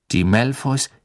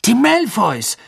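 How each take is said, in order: First: Said in the usual way. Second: High, excited outburst; sudden loud cry. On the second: A narrator's reading. Ron suddenly shouts so the cave echoes, loud cry. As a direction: burst out with it, pitched way up. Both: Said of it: "rief Ron plötzlich so laut".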